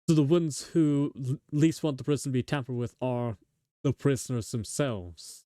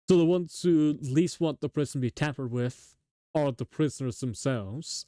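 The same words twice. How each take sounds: First: There is a pause right after 'are'. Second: There is no pause right after 'are'. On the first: "The dot dot dot should be after the R. ... I feel like the second one sounds better" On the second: "as opposed to"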